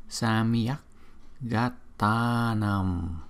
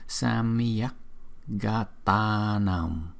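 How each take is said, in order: The two takes are said the same way.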